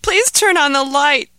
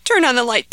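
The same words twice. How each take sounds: First: Higher, louder pleading please; desperate begging. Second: High, loud frightened plea; begging child. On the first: Terrified boy pleads again for the light, desperately. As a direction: beg harder, desperate and scared. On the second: Scared boy begs his parents for light, pleading loudly. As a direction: beg for the light like a scared kid. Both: Acted. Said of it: "begged Ahmed".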